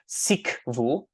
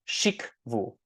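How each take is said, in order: First: The word is said with a plain s sound. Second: The word is said with an sh sound. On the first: "will replace sh with sa" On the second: "has a sh sound in it"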